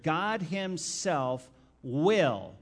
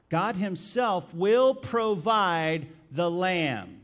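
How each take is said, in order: First: Slow reading, "will" landing with a falling close; stress on will. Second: Slow and louder, each word stressed, "will" falling hard; emphatic proclamation. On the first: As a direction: lean on "will" and let it fall. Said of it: "Circle the word will". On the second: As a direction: preach it word by word. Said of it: "Circle the phrase, the lamb". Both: Shown as a demonstration.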